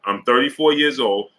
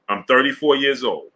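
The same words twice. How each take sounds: The two takes are said the same way.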